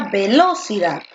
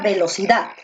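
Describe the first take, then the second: First: The stress is on the second syllable. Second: The stress is on the last syllable. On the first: The speaker calls it wrong. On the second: The speaker calls it right.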